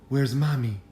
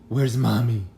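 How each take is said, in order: No difference in how they are said.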